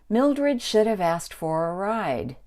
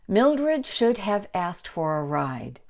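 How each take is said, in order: First: The word have is reduced to sound like of. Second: The word have is said fully, with h.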